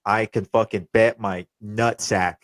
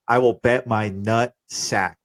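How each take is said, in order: First: Said in the usual way. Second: Slow, with "will" pressed hard; slow down and lean on "will"; emphatic repeat. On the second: Real, not acted. Repeats bet, second more emphatic.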